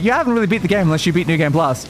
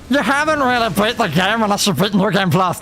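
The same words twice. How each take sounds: First: It is said in a plain, ordinary voice. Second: It is said in a put-on, annoying voice.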